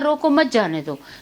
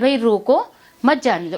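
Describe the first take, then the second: First: The pause comes right after 'mat'. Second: The pause comes right after 'roko'.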